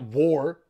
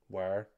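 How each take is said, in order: First: The word is said with an 'or' vowel. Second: The word is said with a long 'eye' vowel. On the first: The speaker calls it wrong. "It's not war" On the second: The speaker calls it right. "That's how you say it, man"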